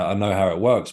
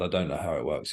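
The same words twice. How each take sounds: First: "I know how it works" firmly put, landing on "works"; contrastive stress. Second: "I don't know how it works" dropped softer, leaning on "don't"; contrastive stress. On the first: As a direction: state "I know how it works" as a claim, weight on "works". Contrasts knowing with not knowing. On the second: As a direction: undercut the claim quietly, "don't" carrying the contrast. Takes back the claim just made. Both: Real, not acted.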